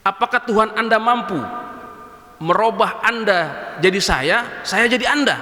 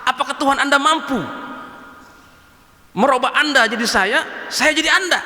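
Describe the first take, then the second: First: Lightly voiced drunkard, slow and teasing; a drunk man goading the sheikh, unhurried; a mild drunkard's taunt to the sheikh; drunkard's challenge. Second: Put-on drunkard's challenge. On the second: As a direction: push the drunk's dare harder. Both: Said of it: "pemabuknya ngomong sama begini".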